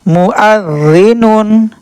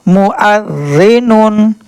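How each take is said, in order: The two takes are said the same way.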